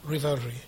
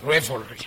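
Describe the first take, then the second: First: "Revelry" tried as ree-VEL-ree, softly; struggling pronunciation. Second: "Revelry" as REV-el-ree, short e first; corrected pronunciation. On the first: Preacher asks anyone to help pronounce it, struggling pronunciation of "Revelry". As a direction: softly test "Revelry" with a long ee in "Re". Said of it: "how to pronounce that". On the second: Preacher repeats the word after getting help, corrected pronunciation of "Revelry". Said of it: "You have it". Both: Real, not acted.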